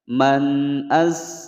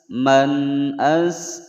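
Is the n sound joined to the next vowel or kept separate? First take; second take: separate; separate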